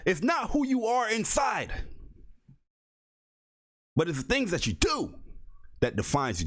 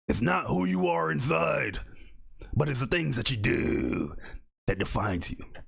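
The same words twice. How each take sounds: First: It is said in his own normal voice. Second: It is said in a gravelly Batman voice.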